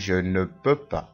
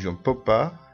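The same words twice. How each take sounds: First: It is said slowly, with every syllable said fully. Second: It is said quickly, with sounds clipped together.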